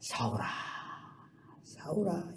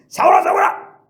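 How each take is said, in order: First: It is said in a gentle, loving tone. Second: It is said in a harsh, condemning tone.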